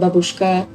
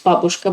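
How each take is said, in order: First: It is said the way foreigners commonly say it. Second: It is said the way native speakers say it. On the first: The speaker calls it wrong. "people keep saying babushka" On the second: The speaker calls it right. "The right word is babushka"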